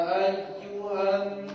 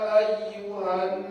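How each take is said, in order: No difference in how they are said.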